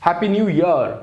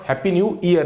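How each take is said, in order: First: The last word begins with a y sound. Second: The last word begins with a plain vowel sound. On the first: It wishes someone a good new year. The speaker calls it right. "इसका उच्चारण ईयर होता है" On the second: It sounds like wishing someone a new ear. The speaker calls it wrong. "Not happy new ईयर, नया कान"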